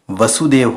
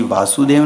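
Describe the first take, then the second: First: वसुदेव with a short a, va-su-dev; वसुदेव opening on a quick, short first syllable; correct form. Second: वासुदेव with a long aa, vaa-su-dev; वासुदेव opening on a stretched long vowel; wrong form. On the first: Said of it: "वसुदेव होता है". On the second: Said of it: "वासुदेव नहीं होता है". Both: Shown as a demonstration.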